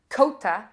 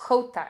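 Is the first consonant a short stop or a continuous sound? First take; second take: stop; continuous. First: The word starts with a short stop sound. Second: The word starts with a continuous friction sound. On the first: "k, it's a one-soft plosive sound" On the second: "it's like a continuous sound"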